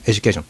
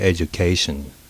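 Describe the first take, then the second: First: The word is said quickly, syllables run together. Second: The word is said slowly, each syllable clear. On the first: The speaker calls it wrong. "I'm speaking really fast back then" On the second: The speaker calls it right. "you just have to say them slowly"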